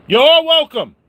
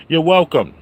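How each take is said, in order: First: You're welcome squeaked way up high and louder; high squealed you're welcome. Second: Said in the usual way. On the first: Acted. Vlogger hamming his catchphrase in falsetto.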